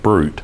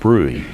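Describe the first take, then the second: First: The word sounds like the English word brute. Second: The word sounds different from the word brute. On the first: The speaker calls it wrong. "It looks like brute" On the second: The speaker calls it right. "but it's called bruit"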